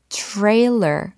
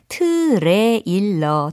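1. 이 단어는 영어식 소리로 발음해요. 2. 이 단어는 한국식 음절로 발음해요. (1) "트레일러 이렇게 시작이 돼요" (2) "트레일러 절대 아니고"

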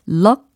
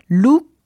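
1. 이 모음은 입을 열고 내는 'uh' 소리예요. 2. 이 모음은 입술을 둥글게 오므린 'oo' 소리예요. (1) "이렇게 모음을 우가 아니라 이렇게 바꾸셔야 된다" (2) "이거부터 틀렸어요"

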